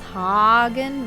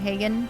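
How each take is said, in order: First: The first vowel sounds like in Haagen-Dazs. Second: The first vowel differs from Haagen-Dazs. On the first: This is the correct pronunciation of the name. The speaker calls it right. "It's Hagen rather" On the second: This is how the name had been mispronounced before. The speaker calls it wrong. "I've been pronouncing it wrong this whole time"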